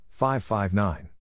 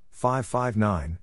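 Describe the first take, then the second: No difference in how they are said.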